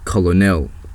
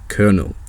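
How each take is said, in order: First: The word is sounded out the way it's spelled. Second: The word sounds like 'kernel', with no middle syllable. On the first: The speaker calls it wrong. "you'd probably pronounce that word like colonel" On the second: The speaker calls it right. "that word is pronounced colonel"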